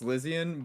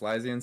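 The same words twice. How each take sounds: First: The first syllable is said like 'sliz'. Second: The first syllable is said like 'sly'. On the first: This is the technically correct name. "technically it's" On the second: This is how most people say the name. "everyone just says"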